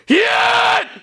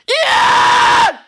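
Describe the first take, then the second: First: It is screamed at a lower pitch. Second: It is screamed higher, like Hundredth's singer.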